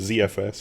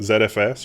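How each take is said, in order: First: The letter Z is pronounced 'zee'. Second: The letter Z is pronounced 'zed'.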